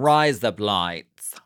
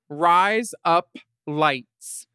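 First: "Rise up lights" in an Aussie accent, to sound like "razor blades"; Australian accent. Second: "Rise up lights" spaced out, each word separate; said slowly. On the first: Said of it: "sound exactly like Aussies saying razor blades". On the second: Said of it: "Say it fast". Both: Shown as a demonstration.

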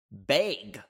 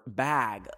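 First: "bag" with a long ay, like "bayg"; Canadian pronunciation. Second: "bag" with a short open a, as in cat; American pronunciation. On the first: Canadian saying it as she was raised to, "bag" as "bayg". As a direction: say "bag" to rhyme with vague. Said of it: "I was raised to talk and say". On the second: Canadian quoting American listeners, "bag" with an open short a. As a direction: say "bag" the American way, rhyming with flag. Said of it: "y'all say bog or bag". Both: Shown as a demonstration.

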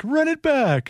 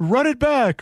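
First: Higher still, Count-like call; hammed-up sportscaster call; Vic Rauter impression. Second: Mock curling call, pitched up; Vic Rauter impression. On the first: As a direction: push the vampire Count further. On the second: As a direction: call it like the Count on air. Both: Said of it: "Just count for us".

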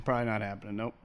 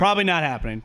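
First: Much softer, lower echo; quiet deadpan aside; muttered repeat. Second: Said in the usual way. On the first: Shown as a demonstration. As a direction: mutter it again under your breath. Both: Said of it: "repeated deadpan".

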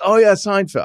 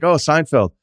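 First: Put-on quick stab at a British accent, pitched up; Ricky Gervais impression. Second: Said in the usual way. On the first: Gervais meeting Larry David at a party, light mock British accent. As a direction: toss off a light British accent, mimicking the comedian. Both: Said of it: "I'm not gonna do the accent".

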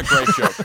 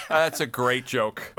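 First: Much higher, louder burst of delight; shrieking praise; delighted squeal. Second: Slow words through laughter; chuckling praise; laughing. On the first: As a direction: squeal it with joy. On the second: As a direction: laugh while you repeat it. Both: Real, not acted. Reacting to Lampanelli joke.

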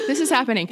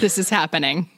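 First: Said in the usual way. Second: Laughing. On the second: Real, not acted. Laughing while announcing the topic.

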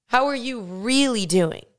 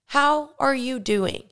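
First: Asking again, with "really" emphasised; stress on really. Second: Slow, caring question; slow caring how are you doing; gentle check-in. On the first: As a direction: push the word "really", meaning it. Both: Shown as a demonstration.

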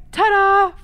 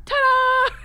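First: Loud high showman's ta-da; loud cheery ta-da. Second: Louder and higher showman's ta-da. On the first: Dad joking about any mishap, loud showman's ta-da. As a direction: present it like a magic trick. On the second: Dad's last joke, biggest showman's ta-da. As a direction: top it off like a grand finale. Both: Retold or imitated. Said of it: "He's like".

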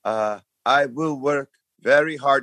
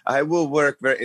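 First: Mock French accent, rehearsed-sounding; imitating a nervous French contestant's stock answer; lightly put-on Montreal French accent, higher. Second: Mock French accent, higher, cut off; parroting a memorized English phrase; hint of a Montreal French accent. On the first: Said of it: "She's from Montreal". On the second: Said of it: "programmed answer that she was going to say".

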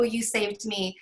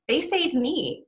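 First: Said in the usual way. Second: "they saved me" lifted much higher in pitch; contrastive stress. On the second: Real, not acted. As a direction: turn it round, pitching "they saved me" up high. Quote turned round for contrast.

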